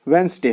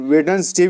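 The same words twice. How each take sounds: First: वेडनेसडे said as wenz-day, the middle d silent; वेडनेसडे squeezed into two syllables, wenz-day; correct pronunciation. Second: वेडनेसडे said as wed-nes-day, every letter sounded; वेडनेसडे with the middle d and e pronounced; spelled-out pronunciation. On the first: (वेडनेसडे को वेंज़-डे बोलें, बीच का डी चुप) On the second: (वेडनेसडे को अक्षरशः वेड-नेस-डे बोलें) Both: Shown as a demonstration. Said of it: "लेकिन ये इसका राइट प्रोनाउंसिएशन".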